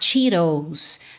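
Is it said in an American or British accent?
American. It is said in an American accent, flapped t. "No American e no Canadian English é comum você falar Cheetos"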